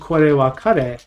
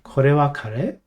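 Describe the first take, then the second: First: The voice stays level or falls at the end. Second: The voice rises at the end. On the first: It states that this is curry. The speaker calls it wrong. "if you just said kore wa kare, then it sounds like you're saying this is curry" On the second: It asks whether this is curry. The speaker calls it right. "You need that rising intonation"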